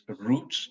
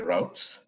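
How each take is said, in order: First: The vowel sounds like 'oo' in boots. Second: The vowel sounds like 'ow' in outs.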